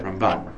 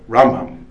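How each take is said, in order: First: Ramban said with BAN stressed; stress on the left side. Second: Rambam said with RAM stressed; stress on the right side. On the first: Teacher marks the accent on the left side. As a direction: land the weight on the last syllable of Ramban. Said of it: "On the left side". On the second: Teacher marks the accent on the right side. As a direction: lean on the first syllable of Rambam. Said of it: "On the right side of the word". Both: Shown as a demonstration.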